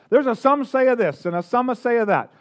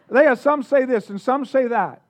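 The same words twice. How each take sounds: First: Lightly put-on Italian accent. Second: Said in the usual way. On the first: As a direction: play it with a touch of mock Italian. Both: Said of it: "I don't know why they all sound Italian".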